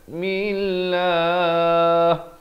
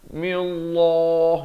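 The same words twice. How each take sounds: First: The L sound is light and thin. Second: The L sound is heavy and thick. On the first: The speaker calls it right. "dibacakan nipis" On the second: The speaker calls it wrong. "itu te, tebal, salah ya"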